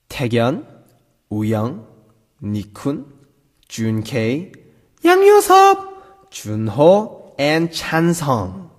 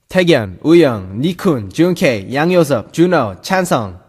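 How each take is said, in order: First: The names are read at a slower pace. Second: The names are read at a faster pace.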